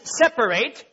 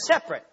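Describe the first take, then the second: First: The word is said with three syllables. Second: The word is said with two syllables. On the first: It is used as a verb. "when it's used as a verb ... it is separate, three syllables" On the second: It is used as a noun. "when it's a noun, it's just separate"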